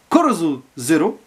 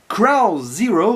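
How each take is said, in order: First: The title is said with Japanese-style sounds. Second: The title is said with English-style sounds.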